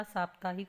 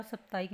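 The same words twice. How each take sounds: First: साप्ताहिक said as "saaptaahik"; long first "aa", sounded "h" in साप्ताहिक; correct pronunciation. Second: साप्ताहिक said as "saptaik"; short first "a", no "h" in साप्ताहिक; wrong pronunciation. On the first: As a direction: clear saap-taa-hik for साप्ताहिक. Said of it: "साप्ताहिक होता है". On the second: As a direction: misread साप्ताहिक as sap-ta-ik. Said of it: "साप्ताहिक नहीं होता". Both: Shown as a demonstration.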